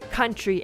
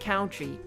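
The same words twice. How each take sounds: First: The first syllable sounds like cut. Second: The first syllable sounds like count. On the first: The speaker calls it right. "it's country and not country" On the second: The speaker calls it wrong. "his Delulu brain converting it into count"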